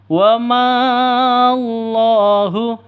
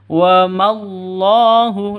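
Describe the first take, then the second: First: The vowel before the l is drawn out. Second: The vowel before the l is short. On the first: The speaker calls it wrong. "itu salah" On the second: The speaker calls it right. "bukan dibaca panjang"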